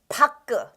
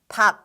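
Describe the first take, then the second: First: The final consonant is released with a vowel. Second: The word ends on a closed final consonant. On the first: The speaker calls it wrong. "you might think it's pronounced 파끄" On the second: The speaker calls it right. "it's actually supposed to be pronounced as 팍"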